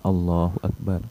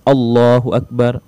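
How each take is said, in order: First: The phrase is said quietly, just audibly. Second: The phrase is said loudly and fully voiced. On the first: "kita orang yang membaca dapat mendengarkan apa yang kita baca" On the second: "Boleh juga keras"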